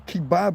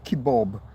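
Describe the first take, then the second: First: The last vowel sounds like an A. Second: The last vowel sounds like an O. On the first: This is the European way of saying it. The speaker calls it right. "It is a kebab, and it's spelt with an A" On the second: This is the American way of saying it. The speaker calls it wrong. "we don't say kebab"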